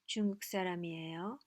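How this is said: The voice rises at the end. It asks a question. "You can do both rising"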